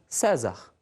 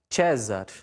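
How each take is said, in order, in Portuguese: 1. Usa uma pronúncia do latim em português brasileiro. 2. Usa a pronúncia eclesiástica do latim. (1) "na pronúncia regional" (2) "Na pronúncia eclesiástica"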